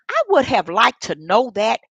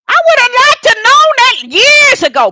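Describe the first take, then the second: First: Said in the usual way. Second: Much higher and louder, bursting out; loud exclaiming. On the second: Real, not acted. Telling her listeners what she wished she'd known, exclaimed loudly. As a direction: cry it out in frustration.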